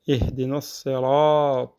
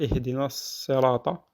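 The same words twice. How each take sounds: First: The vowel after the r is held long. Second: The vowel after the r is short. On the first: The speaker calls it right. "on prolonge le son du, euh, du ra" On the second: The speaker calls it wrong. "on ne dit pas"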